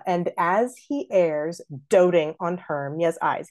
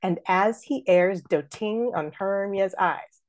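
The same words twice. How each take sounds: First: Slow line with "doting" as DOH-ting; stab on doting. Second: Wrong stress "doting" as do-TING; slow da-DUM reading, do-TING; forced iambic beat. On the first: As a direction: break the beat by stressing the first syllable of "doting". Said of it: "that one word gets a little stab". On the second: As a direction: scan evenly so "doting" lands on its second syllable. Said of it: "We don't say that". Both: Shown as a demonstration.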